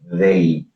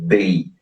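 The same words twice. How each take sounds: First: It starts with a soft th sound. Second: It starts with a hard d sound. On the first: The speaker calls it right. "a língua precisa estar no meio do dente. Então eu preciso falar they" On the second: The speaker calls it wrong. "Eu não posso falar com a língua atrás do dente da frente"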